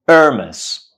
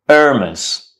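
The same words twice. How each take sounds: First: The word begins directly with a vowel. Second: The word begins directly with a vowel.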